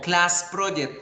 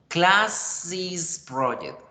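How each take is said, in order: First: The possessive ending is a plain s sound. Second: The possessive ending adds an extra syllable. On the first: It does not sound like the project belongs to the class. The speaker calls it wrong. "solo pronuncio ese normal" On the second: It shows the project belongs to the class. The speaker calls it right. "se deben pronunciar is"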